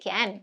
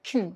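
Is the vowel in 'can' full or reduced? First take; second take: full; reduced. First: The word has a full, open vowel. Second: The word has a short, weak vowel. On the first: The speaker calls it wrong. "Can എന്നൊന്നും ഒരിക്കലും പറയില്ല" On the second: The speaker calls it right. "It gets reduced to kin"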